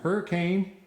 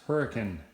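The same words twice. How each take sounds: First: The name is said the outsider way. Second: The name is said the local way. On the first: Someone not from the area said it. The speaker calls it wrong. "having somebody say, "Are you from Hurricane?"" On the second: This is how locals say it. The speaker calls it right. "no, it's Hurricane"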